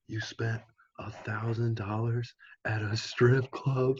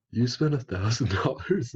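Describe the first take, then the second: First: Slow, higher-pitched imitation of an appalled mom; scolding mom. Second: Higher, incredulous mock question; retold disbelief. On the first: Friend retelling a mom's phone call about the strip club, mock scolding. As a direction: draw it out in mock maternal disbelief. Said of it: "his mom's like". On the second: Friends hearing about the thousand dollars, acted disbelief. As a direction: echo the question in acted astonishment. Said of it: "we were just like".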